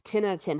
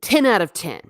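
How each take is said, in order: First: Said in the usual way. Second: Emphatic verdict. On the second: Real, not acted.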